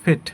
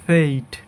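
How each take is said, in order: First: ফেট with a short pure e; common mispronunciation. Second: ফেইট with a long ei glide; correct pronunciation. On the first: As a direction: say ফেট as "fet", no glide. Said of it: "অনেকে আবার বলে এভাবে". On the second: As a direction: say ফেইট as "feit". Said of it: "এটা হবে". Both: Shown as a demonstration.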